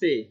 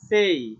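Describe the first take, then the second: First: The vowel stays a single plain 'e'. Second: The vowel glides from 'e' into 'ee'. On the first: The speaker calls it wrong. "Not সে" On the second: The speaker calls it right. "সেই, not সে"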